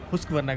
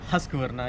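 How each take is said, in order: First: The first syllable is hoosk with an oo vowel. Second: The first syllable is husk with a short vowel. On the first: The speaker calls it right. "उसको pronounce भी हुस्क वरना करते हैं" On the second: The speaker calls it wrong. "ना कि हस्क वरना"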